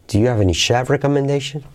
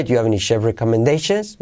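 First: Accent "chef", keep the question up; stress on chef. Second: "chef" unaccented, rise saved for "recommendations". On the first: Teacher showing preferred version, stress on chef. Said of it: "me suena como más mío el chef". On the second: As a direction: move the accent off "chef" to "recommendations". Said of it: "ahí sonaría más hispano". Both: Shown as a demonstration.

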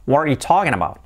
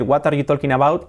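First: Linked English, "wha-ree-you TAW-kin abow"; reduced, fluent native English accent. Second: Spanish-accented English, each word separate; "talking" as "TOL-kin", rising at the end; learner's Spanish accent. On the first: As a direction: run the words together like a native. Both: Shown as a demonstration. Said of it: "Cambia mucho decir".

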